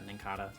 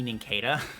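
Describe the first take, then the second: First: The ending sounds different from cicada's ending. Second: The ending sounds like the ending of cicada. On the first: This is how most people say it. "almost everybody says uh" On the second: The name is based on the word cicada. "I think it should be Nincada because I say cicada"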